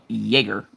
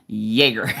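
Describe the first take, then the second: First: The first syllable sounds like 'jay'. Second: The same.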